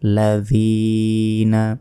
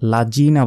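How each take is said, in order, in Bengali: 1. মাঝের ব্যঞ্জনটি একটি নরম 'th' ধ্বনি। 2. মাঝের ব্যঞ্জনটি 'j' ধ্বনি। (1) "নরমভাবে উচ্চারণ করতে হবে এবং জিহ্বা বের করে" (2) "লাজিনা বলা যাবে না"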